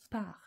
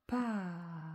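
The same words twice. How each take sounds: First: Said in the usual way. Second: "Par." stretched slowly, long A into long R; drawn-out syllable. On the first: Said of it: "Dans par, j'entends P". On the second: Shown as a demonstration. Teacher sounding out the word while writing, drawn-out syllable. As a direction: sound out "Par." without a break, holding each sound. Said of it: "Je ne m'arrête pas entre".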